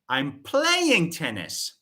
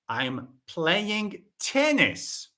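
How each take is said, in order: First: The verb is said louder than the rest. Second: The last word is said louder than the rest. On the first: It answers what is being done. "I'm shifting the focus on the verb play" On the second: It answers which game is being played. "not football, no"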